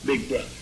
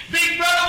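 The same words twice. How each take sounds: First: Low, soft echo; quiet aside. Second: David taunting brothers. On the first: Preacher echoing David's words, low and soft. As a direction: drop it to a murmur. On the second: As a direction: goad them to go fight. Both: Acted.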